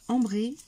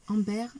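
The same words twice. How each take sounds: First: "Ambré" read as the French word, nasal "am" and a final "é", said louder; loud French "Ambré" by mistake; mistaken French reading. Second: "amber" said as English, "am-ber" with a final "er"; "amber" in English, a little louder; corrected English word. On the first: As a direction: blurt out "Ambré" the French way before catching yourself. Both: Real, not acted.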